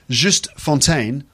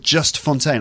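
First: The first name has a French vowel sound. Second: The first name sounds like English just. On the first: "I think it's Juste" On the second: "I'm going to call him Just Fontaine"

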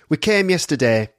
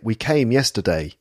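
First: The vowel in came is one flat sound. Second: The vowel in came glides between two sounds. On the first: "they pronounce that diphthong differently, and it's not rounded" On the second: "And I would say"

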